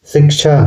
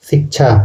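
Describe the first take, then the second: First: Said in the usual way. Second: शिक्षा said as "sik-chha"; Nagpuri pronunciation. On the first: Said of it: "अब example देख लेते हैं". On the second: Shown as a demonstration. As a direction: say शिक्षा with s and an aspirated chh. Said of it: "छ के जगह केवल छ यूज़ होता है". (शिक्षा का नागपुरी उच्चारण, सिक्छा)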